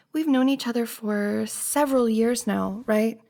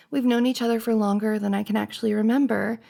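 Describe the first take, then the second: First: Rising, unsure tune on "several years now"; said like a question. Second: Said in the usual way. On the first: Acted. Checking with a lifelong friend, said like a question. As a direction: lift "now" and tag on a questioning "right". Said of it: "I said it like it was a question". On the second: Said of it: "I don't know why I said it like it was a question".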